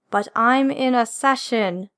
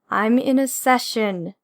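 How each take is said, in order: First: "But I'm in a session" slow, "I'm" stressed; slow insistence, weight on "I'm"; firm repeat. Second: Slow and firm, lean on "in"; firm repeat. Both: Acted.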